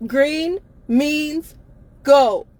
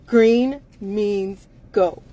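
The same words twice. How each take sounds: First: Louder, higher push on go; loud insistence. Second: Slow, every word spaced apart; very slow emphatic. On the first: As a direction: drive the word go home, loud. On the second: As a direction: spell out green means go slowly. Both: Real, not acted.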